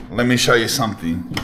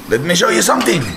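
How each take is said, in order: First: Said in the usual way. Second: Higher and a touch louder, eager; showing off a find to viewers, eager; excited announcement. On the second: Shown as a demonstration. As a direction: say it again with a lift, like a reveal. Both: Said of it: "repeated louder".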